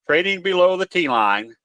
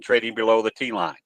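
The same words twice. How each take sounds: First: "below" lifted, line ends on a rising tune; stress on below. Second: Said in the usual way. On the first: Shown as a demonstration. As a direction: lean on "below" and let it rise.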